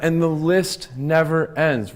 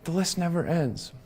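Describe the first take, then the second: First: The list never ends, drawn out slowly; slow and weighty. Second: The list never ends, dropped to a hush with weight on list; soft echo. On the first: Coach telling a small team audience, slow and deliberate. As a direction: let never ends land with a falling close. Repeats the phrase for emphasis. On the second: Speaker echoing her own point to the audience, much softer. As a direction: hush it like a weary sigh. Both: Real, not acted.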